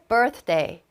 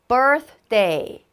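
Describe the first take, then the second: First: The word is said at a fast pace. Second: The word is said at a slower pace.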